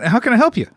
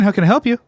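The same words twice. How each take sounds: First: The voice is raised to a high, light pitch. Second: The voice is at a normal, lower pitch. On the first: "your voice goes up an octave" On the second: "That's how I, I sound"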